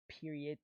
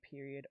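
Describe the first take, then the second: First: The word ends with an added T sound. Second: The word ends without an added T sound.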